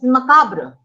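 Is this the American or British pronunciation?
American. It is said with an American pronunciation. "the Americans pronounce it as"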